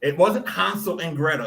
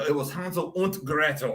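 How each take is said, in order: First: Said in the usual way. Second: Und said oont, German u and t; German pronunciation. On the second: Shown as a demonstration. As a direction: Gretel said Greh-toh, German style. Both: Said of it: "I pronounced it in, like, a German accent".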